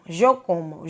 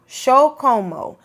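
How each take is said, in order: First: It is said with a Colombian or Venezuelan pronunciation. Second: It is said with an Argentine pronunciation. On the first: "that would be like Colombia, Venezuela" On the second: "which region would that be from? Argentina, sí"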